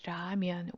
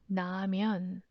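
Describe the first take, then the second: First: The word begins with an R sound. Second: The word begins with an N sound. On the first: "with R sound" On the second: "even 라면 with N sound"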